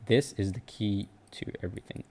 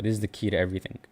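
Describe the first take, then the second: First: Much softer, almost confiding, like a secret; hushed repeat. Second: Said in the usual way. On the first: Shown as a demonstration. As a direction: drop the voice way down to let it sink in. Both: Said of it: "this is very spiritual".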